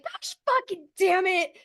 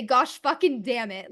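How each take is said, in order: First: Much higher, fed-up swearing; stranded again, cursing in exasperation; exasperated curse. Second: Said in the usual way. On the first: Retold or imitated. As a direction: throw up your hands and curse. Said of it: "Literally just like". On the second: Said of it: "and say".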